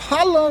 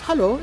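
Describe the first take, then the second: First: Hello is said loudly and sharply. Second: Hello is said softly and gently.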